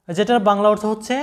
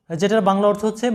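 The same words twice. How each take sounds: The two takes are said the same way.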